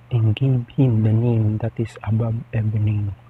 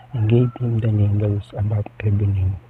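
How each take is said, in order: No difference in how they are said.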